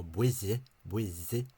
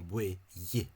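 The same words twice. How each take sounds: First: "buille" with the old voiced DH as in "this"; old DH pronunciation. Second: "buille" with DH softened to a Y glide; later GH pronunciation. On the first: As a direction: sound out "buille" with a DH between two syllables. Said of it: "D H sound". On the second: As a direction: say "buille" slowly, Y between two syllables. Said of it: "became a G H sound". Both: Shown as a demonstration.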